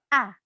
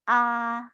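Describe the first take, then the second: First: The pitch falls sharply and firmly. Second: The pitch stays level throughout. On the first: "seperti orang marah atau tegas" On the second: "seperti kita bicara seperti biasanya"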